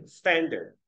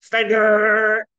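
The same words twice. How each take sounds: First: "Standard" with strong "Stan", light falling "dard"; first-syllable stress. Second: "Standard" with a high, loud, dragged-out "dard"; exaggerated backwards stress on "Standard"; reversed stress. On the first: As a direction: let the second syllable of "Standard" drop away. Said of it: "一个是重". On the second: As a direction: wrongly lean hard on the end of "Standard". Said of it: "你不要倒过来啊". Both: Shown as a demonstration.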